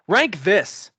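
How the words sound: It is said in an angry, scolding tone. The speaker calls it right.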